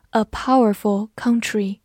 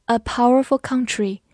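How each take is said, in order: Both takes have the same delivery.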